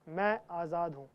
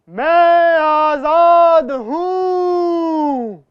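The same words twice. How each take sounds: First: It is said softly and calmly. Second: It is said very loudly.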